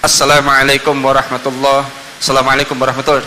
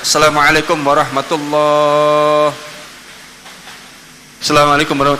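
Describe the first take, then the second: First: There is no pause between the two greetings. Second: There is a pause between the two greetings. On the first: The speaker calls it right. "tidak ada kalimat jeda di situ" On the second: The speaker calls it wrong. "tidak perlu ada jeda. Misalnya"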